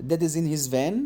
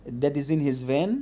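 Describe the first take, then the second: The two takes are said the same way.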